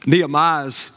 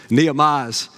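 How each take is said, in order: Both takes have the same delivery.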